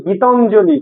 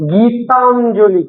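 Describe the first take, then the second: First: Said in the usual way. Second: Gitanjali drawn out, syllable by syllable; slowly. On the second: Shown as a demonstration. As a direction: say Gitanjali slowly so pupils hear its parts. (Gitanjali আস্তে আস্তে, টেনে) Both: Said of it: "আমি আরেকটু আস্তে আস্তে বলবো".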